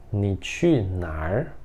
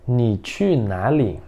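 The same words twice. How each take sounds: First: Ni qu nar said slowly and softer, ending with a rising tone; erhua nar form. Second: Ni qu nali said slowly, ending with a falling tone; standard nali form. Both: Shown as a demonstration. Teacher contrasting two ways of asking where you go.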